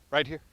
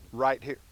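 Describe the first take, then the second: First: Higher and firmer right here; insist, no arguing; firm command. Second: Said in the usual way. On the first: Real, not acted. Repeating heel command firmer.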